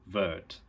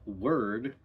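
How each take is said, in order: First: The word begins with a V sound. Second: The word begins with a W sound. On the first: "turns to word" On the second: "So a word like word"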